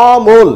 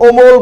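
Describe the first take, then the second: First: অমল with an open first vowel, ɔ-mol. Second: অমল with a rounded first vowel, o-mol, the wrong way. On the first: Teacher models অমল for students, open ɔ sound. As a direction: say অমল with the lips relaxed and wide, ɔmol. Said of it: "আমরা কি উচ্চারণ করছি?". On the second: Teacher shows students the wrong rounded omol. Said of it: "আমরা কিন্তু অমল বলছি না". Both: Shown as a demonstration.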